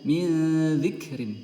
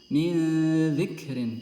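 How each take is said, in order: No difference in how they are said.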